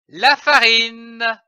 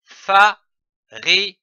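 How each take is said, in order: First: Said in the usual way. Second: "fa-ri-ne" in separate syllables, a pause after each. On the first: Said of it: "L'association de ces syllabes donne". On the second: Shown as a demonstration. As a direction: sound out "fa-ri-ne" piece by piece. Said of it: "Je lis un mot avec les syllabes".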